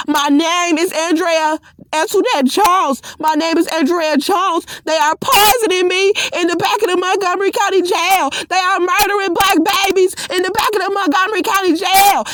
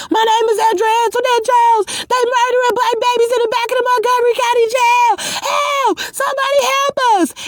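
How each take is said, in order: First: Mild mock yell, building toward the end; steady, insistent calling out of her name; retold scream. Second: Much higher desperate screaming, fast; screaming for help. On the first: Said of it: "I started to scream". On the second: Retold or imitated. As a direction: shriek it out like you're being dragged away. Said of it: "I was screaming".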